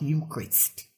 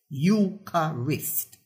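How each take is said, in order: First: The word is said with two syllables. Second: The word is said with three syllables. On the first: The speaker calls it wrong. "and not Eucharist" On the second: The speaker calls it right. "3, not 2 syllables in the word Eucharist"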